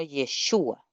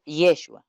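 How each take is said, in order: First: Yeshua said slowly with a long, stretched u; correct long u. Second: Yeshua said quickly with a short u; the wrong way, Yeshua with a clipped u sound. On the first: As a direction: draw out the u in Yeshua. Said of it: "No es Yeshua". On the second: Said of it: "sino Yeshua". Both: Shown as a demonstration.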